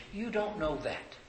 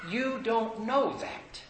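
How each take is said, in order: First: Said in the usual way. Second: "You don't know that" drawn out, higher, with weight on "know"; slow firm rebuke. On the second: Real, not acted. Preacher correcting a church member who dismisses visitors, slow and firm.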